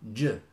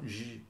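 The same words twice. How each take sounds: First: The consonant is hard, like in jump. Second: The consonant is soft, like French je. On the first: The speaker calls it right. "No, j" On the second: The speaker calls it wrong. "Not j"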